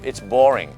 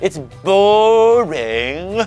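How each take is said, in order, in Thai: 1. ใช้สำเนียงอังกฤษแบบเป็นธรรมชาติ 2. ใช้สำเนียงอังกฤษที่เกินจริงมาก (1) "คนอังกฤษพูด" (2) "คุณไม่ต้องไป ... ไม่ต้องขนาดนั้นก็ได้นะครับตะคริวกินปากหรือเปล่า"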